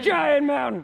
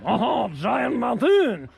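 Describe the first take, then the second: First: It is said in a plain accent. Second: It is said in a put-on French accent.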